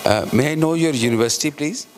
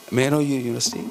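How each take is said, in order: First: Louder question. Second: Said in the usual way. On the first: Real, not acted. Chair calling out to the presenter to ask her university, louder and quicker.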